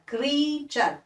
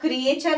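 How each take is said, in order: First: The first vowel is one long ee sound. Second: The first vowel splits into two sounds, kri-e. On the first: The speaker calls it right. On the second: The speaker calls it wrong. "इसको क्रिएचर नहीं पढ़ते"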